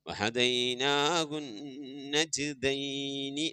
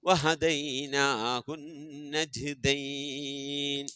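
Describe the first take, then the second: First: The last word ends with a short i vowel. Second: The last word ends on a consonant. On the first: The reading continues without stopping. "വഹദൈനാഹു നജ്ദൈനി എന്നാണ്" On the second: The reading stops at the verse end. "ആയത്ത് അവസാനിക്കുമ്പോ വഹദൈനാഹു നജ്ദൈൻ എന്ന് പറഞ്ഞിട്ട് നമ്മൾ നിർത്തും"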